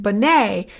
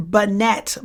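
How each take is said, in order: First: Binet with a silent T, ending in "ay"; French pronunciation. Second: Binet read as written, with a sounded T; spelling pronunciation. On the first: Teacher showing students how the French name sounds, Binet ending in "ay". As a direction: say Binet the French way, "bih-NAY". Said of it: "so it's pronounced Binet". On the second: Teacher warning exam takers how it looks, Binet with a hard final T. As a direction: say Binet like "bih-NET". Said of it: "look on paper like Binet". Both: Shown as a demonstration.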